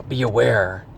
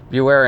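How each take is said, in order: First: Said in the usual way. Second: Be aware said louder, with a push on aware; firm, louder reminder to the listener; emphatic repeat. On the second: Shown as a demonstration. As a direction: hammer home be aware the second time.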